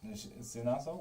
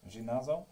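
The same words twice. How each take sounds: First: Zinazo with a Z sound, zi-NAH-zo, rising; corrected name. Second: Ginazo with a hard G, a questioning first try; misread name. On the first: Correcting the viewer's name from chat, says Zinazo with a Z. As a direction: Zinazo said with a clear Z and a puzzled lift. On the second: Reading the viewer's name from chat, first says Ginazo with a hard G. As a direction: Ginazo read as gi-NAH-zo, unsure. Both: Real, not acted. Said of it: "Zinazo, what?".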